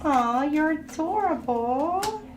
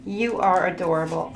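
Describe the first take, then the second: First: High, slow, doting coo. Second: Said in the usual way. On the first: Real, not acted. Reader coos the card's line to the viewer, doting and slow. Reads card, then coos it.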